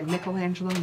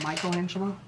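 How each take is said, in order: First: The name is said with an Italian pronunciation. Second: The name is said with an English pronunciation. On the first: This is how it is said in Italy. The speaker calls it right. "you're supposed to say" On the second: This is the common English way to say it. The speaker calls it wrong. "not Michelangelo"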